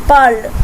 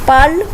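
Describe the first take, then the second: No difference in how they are said.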